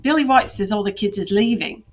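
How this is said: It is read in a put-on Cockney accent.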